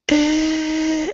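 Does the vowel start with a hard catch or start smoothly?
smoothly. The vowel starts and ends smoothly without catching. The speaker calls it right. "Try again. Listen"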